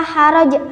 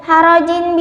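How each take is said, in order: First: The word ends on a consonant. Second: The word ends with a full vowel ending. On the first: The reader stops on this word. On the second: The word is read without stopping.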